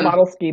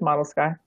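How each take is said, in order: First: The name ends with an 'ee' sound. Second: The name ends with an 'eye' sound. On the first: The speaker calls it wrong. "I always want to say Model Ski" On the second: The speaker calls it right. "but it's Model Sky"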